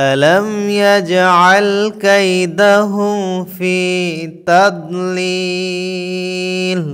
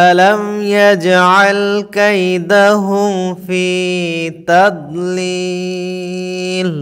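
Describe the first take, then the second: The two takes are said the same way.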